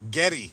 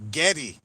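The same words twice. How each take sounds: First: The first vowel sounds like the e in 'get'. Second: The same.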